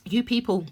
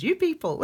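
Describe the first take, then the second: First: Said in the usual way. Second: A light, higher take on mum saying "You people"; imitating mum. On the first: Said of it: "That's how we talk in my family". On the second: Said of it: "that's how my mum talks".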